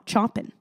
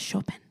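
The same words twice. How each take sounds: First: The name is read as English spelling suggests. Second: The name is read unlike its English spelling. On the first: The speaker calls it wrong. "Not Chopin. Not, it looks like Chopin" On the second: The speaker calls it right. "It is Chopin, I think"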